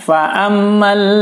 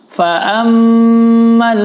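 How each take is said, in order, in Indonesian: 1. M sengau dipotong pendek tanpa ditahan. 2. M sengau ditahan beberapa ketukan. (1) "nah itu kurang tepat" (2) "maka bacanya harus ditahan, didengung empat ketukan"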